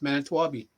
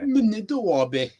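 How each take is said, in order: First: The name has an anglicized English pronunciation. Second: The name has its original Ojibwe pronunciation. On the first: "And in English, it's Manitowabi" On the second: "original would be Minidowabe"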